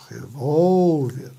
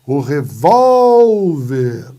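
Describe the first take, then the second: First: "revólver" at talking volume, VÓL stretched; lower, gentler stretch on VÓL of "revólver"; drawn-out stressed syllable. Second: Loud call with VÓL in "revólver" held very long; stretched stressed syllable. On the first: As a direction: slowly show the long VÓL in "revólver". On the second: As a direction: bellow "revólver", dragging out the middle VÓL. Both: Shown as a demonstration. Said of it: "Eu tenho a penúltima".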